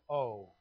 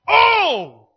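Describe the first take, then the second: First: It is said flatly, without energy. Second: It is said as a loud exclamation.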